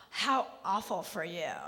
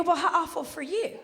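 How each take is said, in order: First: Mock pity. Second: Pointed fake pity thrown back; mock sympathy comeback. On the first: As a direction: pity them condescendingly after a gasp. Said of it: "She goes". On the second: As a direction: echo their pity right back at them. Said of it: "I go".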